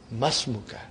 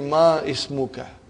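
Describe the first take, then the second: First: The 'i' is dropped and the words run together. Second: The 'i' of ismuka is pronounced as a separate vowel. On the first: The speaker calls it right. "You should say masmuka. Because hamzatul wasal" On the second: The speaker calls it wrong. "It will be incorrect to say ma ismuka"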